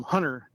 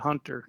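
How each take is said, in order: First: Hunter said with the T dropped, like "Hunner"; little accent. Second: Said in the usual way. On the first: Retold or imitated. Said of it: "in his little accent". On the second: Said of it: "instead of Hunter".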